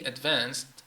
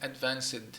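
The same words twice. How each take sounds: First: The ending adds no extra syllable. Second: The ending adds an extra syllable. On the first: The speaker calls it right. "it still sounds as D advanced, advanced, but there is no syllable" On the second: The speaker calls it wrong. "I can't say advanced, advanced. No, it's wrong"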